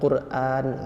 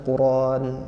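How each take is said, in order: First: A clear glottal stop is pronounced before the final vowel. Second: The glottal stop is dropped and the vowel is lengthened. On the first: This is the common reading style most listeners learned. "hamzahnya tegas kan" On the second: This is the reading tradition of the people of Mecca. "tidak menegaskan huruf hamzahnya, tetapi me membalikkan hamzah itu menjadi alif al-mad"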